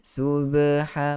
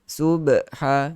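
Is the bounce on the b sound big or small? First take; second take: small; big. First: The b sound has a small, light bounce. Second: The b sound has a big, heavy bounce. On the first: The speaker calls it right. "Yang ringan. Yang kecil" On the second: The speaker calls it wrong. "Itu uh, lantunan yang uh, besar"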